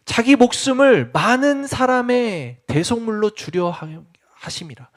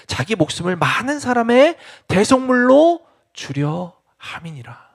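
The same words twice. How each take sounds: First: Each word laid down slowly, the last fading to a whisper; slow it right down and let it die away; slow, weighty reread. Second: Said in the usual way. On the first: Shown as a demonstration. A preacher rereads the verse slowly for weight. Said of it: "repeat of the verse just read". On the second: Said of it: "repeats the verse slowly".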